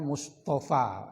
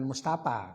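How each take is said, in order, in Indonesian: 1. Kata ini berakhir dengan bunyi f. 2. Kata ini berakhir dengan bunyi p. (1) "Bacaannya Mustafa" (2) "bukan Mustafa. Kalau Mustafa itu muka serem tapi pau"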